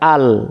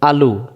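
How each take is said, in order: First: The word ends on the l consonant. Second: The word ends with a short u vowel. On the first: The reader stops at a pause point. "পেশটাকে বাদ দিতে হবে। ... এখন উচ্চারণ হয়ে গেছে আল" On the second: The reading continues without stopping. "লাম্পেশ লো"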